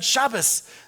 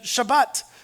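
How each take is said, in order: First: The word ends with an s sound. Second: The word ends with a t sound.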